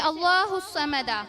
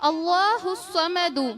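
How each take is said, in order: First: The last word ends in an 'a' vowel. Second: The last word ends in a 'u' vowel. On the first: It would mean God's intention. The speaker calls it wrong. "पेश के जगह जबर लगा दे" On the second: God is self-sufficient. The speaker calls it right. "दाल के ऊपर पेश"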